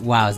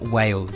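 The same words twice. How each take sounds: First: The vowel sounds like 'ow', as in 'wows'. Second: The vowel sounds like 'ay', as in 'whales'. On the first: This is how the speaker naturally says it. "I say it like Wales" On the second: This is how others expect it to be said. "not Wales"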